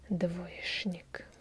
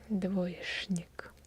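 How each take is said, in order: First: The consonant before 'nik' sounds like 'sh'. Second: The consonant before 'nik' sounds like 'sh'.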